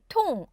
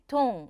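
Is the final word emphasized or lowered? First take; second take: emphasized; lowered. First: The final word is said with strong emphasis. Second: The final word is said low, without emphasis. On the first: The speaker calls it right. "통에서 뭔가 제가 강조를 해서 발음을 하게 돼요" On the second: The speaker calls it wrong. "이렇게 내리시면은 발음이 통과 똥의 약간 중간 발음이 나기도"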